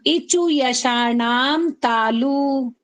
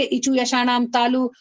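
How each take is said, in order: First: Very slow, drawn-out sutra chant; slow recitation. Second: Said in the usual way. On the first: Shown as a demonstration. Teacher chants the sutra slowly for students to repeat. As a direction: stretch every syllable for the class. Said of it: "अब बोलना". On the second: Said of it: "मन में याद करेंगे".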